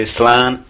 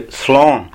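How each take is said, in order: First: Slán with an open, fronted "a", like "slan"; Ulster-dialect slán, open "ah" rather than "aw"; northern Irish pronunciation. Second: Slán with a rounded "aw", like "slawn"; slán as said outside Ulster, with an "aw" vowel; southern Irish pronunciation. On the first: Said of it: "in the northern dialect we would say". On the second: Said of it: "In other parts of the country they would say". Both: Shown as a demonstration.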